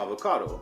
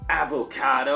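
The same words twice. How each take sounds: First: It sounds like a natural everyday American pronunciation. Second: It sounds like a forced, exaggerated American pronunciation. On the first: This is how most Americans say it. "the way I say it, avocado. That's the way most Americans would say it" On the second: Someone else is trying too hard to sound American. "he said, avocado. Like he's trying to like make it sound like as American as possible"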